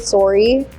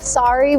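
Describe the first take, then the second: First: The first vowel is a rounder O sound. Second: The first vowel is a flatter, open sound. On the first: "we say sorry. ... a bit more of that O sound" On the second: "Instead of sorry"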